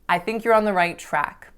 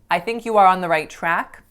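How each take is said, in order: First: 'You are' is contracted to 'you're'. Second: 'You are' is said as two full words. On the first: The speaker calls it right. "that sounds natural and common and everyday" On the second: The speaker calls it wrong. "that doesn't sound natural to a native English speaker"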